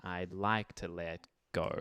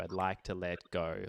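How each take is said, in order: First: "I'd like to let go" slow and even; on the beat. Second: "I'd like to let go" pushed later, behind the beat; backphrased. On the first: Teacher's preferred take before the backphrased one. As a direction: keep "let go" on the beat, unhurried. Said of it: "as opposed to". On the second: Teacher showing the backphrasing many singers use. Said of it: "A lot of people would sort of backphrase that". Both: Shown as a demonstration.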